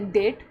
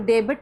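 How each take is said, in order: First: The b sound is left out of the word. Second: The b sound is pronounced in the word. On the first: The speaker calls it right. "यह डेट। डेट क्यों है, क्योंकि यहाँ पे T से पहले बी आ रहा है तो बी साइलेंट है।" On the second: The speaker calls it wrong. "जैसे इसको डेबिट नहीं पढ़ना"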